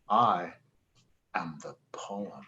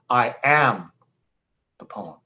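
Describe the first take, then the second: First: The stress is on "poem". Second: The stress is on "am".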